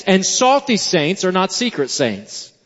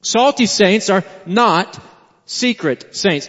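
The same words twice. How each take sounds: First: Said in the usual way. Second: Slow "Salty saints are not secret saints", stress on "Salty"; slow emphasis. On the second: Shown as a demonstration. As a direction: pause after "not" and land "secret saints".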